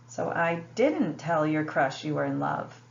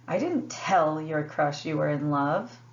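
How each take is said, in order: First: The stress is on "didn't". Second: The stress is on "tell".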